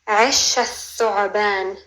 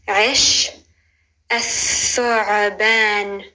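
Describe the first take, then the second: First: It is said at normal speed. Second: It is said slowly.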